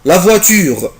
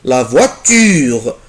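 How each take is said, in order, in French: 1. Elle se dit rapidement, d'un seul trait fluide. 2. Elle se dit lentement, en insistant sur le t. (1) "ممكن انطقها كده بسرعة" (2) "او اقف عند حرف التي"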